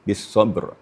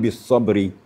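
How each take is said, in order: First: The last word ends on a bare consonant. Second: The last word ends with an added vowel. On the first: The speaker calls it right. "maka hurufnya disukunkan" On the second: The speaker calls it wrong. "Jangan bis sabri"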